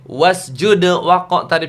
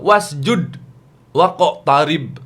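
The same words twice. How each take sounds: First: The d bounces and links into the next word. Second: The d is cut off with a stop. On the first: The speaker calls it right. "Itu kan ada kol-kolah semua ya" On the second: The speaker calls it wrong. "Coba kalau judnya harus potong"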